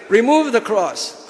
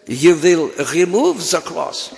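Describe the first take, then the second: First: Put-on Indian accent. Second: Put-on French accent. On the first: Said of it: "whatever Indian way of speaking". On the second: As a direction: put on a hammy Peter Sellers French accent. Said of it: "That's a French accent".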